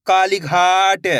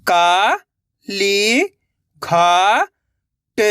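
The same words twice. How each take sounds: First: काली घाट joined and slow; blended word. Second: का, ली, घा, ट held, with gaps; syllable by syllable. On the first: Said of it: "तो मिलके बन जाएगा". (काली घाट मिलाकर, धीरे से) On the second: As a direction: sound out का, ली, घा, ट one by one. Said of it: "एक एक अक्षर का उच्चारण करके". (का, ली, घा, ट अलग-अलग) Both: Shown as a demonstration.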